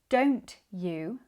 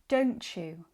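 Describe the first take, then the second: First: The t and y are said separately. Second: The t and y blend into a ch. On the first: "instead of saying each word clearly and separately" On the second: "becomes don't you"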